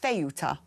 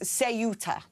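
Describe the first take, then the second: First: It is pronounced the northern Spanish way. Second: It is pronounced the southern Spanish way. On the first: "or Ceuta further north" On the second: "especially in southern Spain, it is actually pronounced Ceuta"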